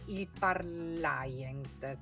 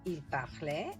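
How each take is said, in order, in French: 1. Ça se prononce avec des sons à l'italienne. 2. Ça se prononce avec des sons français.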